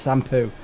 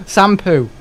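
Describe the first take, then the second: First: Shampoo with proper sh at start; correct pronunciation. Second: Shampoo said as sampoo with s sound; wrong pronunciation. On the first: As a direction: shampoo said as shampoo, clear sh. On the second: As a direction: Shampoo with plain s instead of sh. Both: Shown as a demonstration. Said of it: "Not shampoo, it's shampoo".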